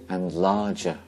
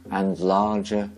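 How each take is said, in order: Both takes have the same delivery.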